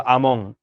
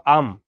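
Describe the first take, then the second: First: "আমং" closed on a nasal ng; anusvara ending. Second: Said in the usual way. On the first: Shown as a demonstration. Teacher showing mock Sanskrit, "আমং" with a final ng. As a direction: add an ng sound to the end of "আমং". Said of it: "শেষে যদি তুমি অনুস্বার যোগ করো". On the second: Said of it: "শব্দের শেষে যদি তুমি অনুস্বার যোগ করো".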